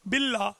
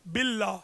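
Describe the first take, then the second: The two takes are said the same way.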